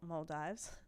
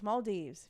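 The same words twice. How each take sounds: First: It is said the Australian way. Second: It is said the non-Australian way. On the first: "my Aussies out there who pronounce it Maldives" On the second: "It's Maldives for anyone"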